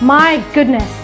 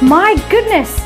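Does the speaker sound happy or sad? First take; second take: sad; happy. First: It is said in a sad, disappointed tone. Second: It is said in a happy, surprised tone. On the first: The speaker is disappointed about the situation. "you can express your happiness or your sadness" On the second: The speaker is delighted and surprised. "if you are happy with the thing"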